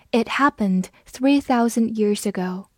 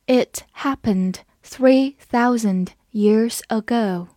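First: Said in the usual way. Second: Slow, word-by-word model reading; unhurried teacher's demonstration for repeating; slow read-through. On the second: Shown as a demonstration. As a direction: read it slowly with small gaps between phrases. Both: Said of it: "我们慢读一遍".

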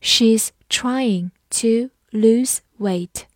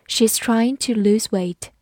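First: Slow reading. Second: Said in the usual way. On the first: Shown as a demonstration. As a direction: read it slowly so they can follow. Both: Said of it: "跟着我慢读一遍".

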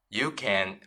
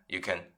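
First: "you can" with full vowel, kʰæn; full-form you can; weak form you can. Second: "can" reduced to kən, unstressed; weak-form "you can". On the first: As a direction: say "can" clearly as kæn. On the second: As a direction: swallow the vowel in "can". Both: Shown as a demonstration. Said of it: "弱读成you can".

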